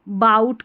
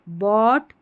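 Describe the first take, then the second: First: The vowel sounds like 'ow' in 'out'. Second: The vowel sounds like 'aw' in 'saw'. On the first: The speaker calls it wrong. "गलत उच्चारण है" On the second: The speaker calls it right. "ऐसे आप याद कर लें"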